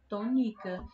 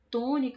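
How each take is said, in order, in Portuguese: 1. A tônica está na sílaba do meio. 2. A tônica está na primeira sílaba. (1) "Se a sílaba mais forte da palavra tônica fosse o ni" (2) "a gente percebe que o tó é o tom"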